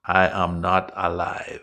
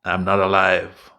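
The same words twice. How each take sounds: First: "I am not alive" low, each word separated; word-by-word prompt. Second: "I'm not alive" loud, low and run together; run-together prompt. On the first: Repeats phrase word by word. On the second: Prompts toy with contracted phrase. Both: Shown as a demonstration.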